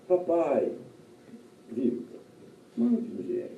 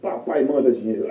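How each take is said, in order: First: It sounds like a gentle, sweet request. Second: It sounds like a rude, demanding order.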